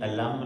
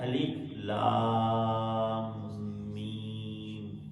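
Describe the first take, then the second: First: The letters are joined into one word. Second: Each letter name is said separately. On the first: The speaker calls it wrong. "ये अलम नहीं है" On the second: The speaker calls it right. "ये है अलिफ लाम मीम"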